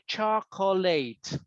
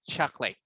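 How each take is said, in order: First: Every syllable of the word is clearly pronounced. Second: The word is shortened, with a syllable dropped. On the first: The speaker is stressing the word for emphasis. "she wants to emphasize on the word chocolate... pronounce it or say all the syllables" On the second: This is ordinary everyday speech. "But everyday speaking"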